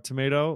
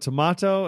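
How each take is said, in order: First: It is said with a non-Australian pronunciation. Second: It is said with the Australian pronunciation.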